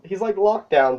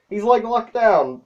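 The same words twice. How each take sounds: First: Said in the usual way. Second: High, slow, amused delight; tickled by the joke, drawn out. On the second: Real, not acted. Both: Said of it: "I found this hilarious".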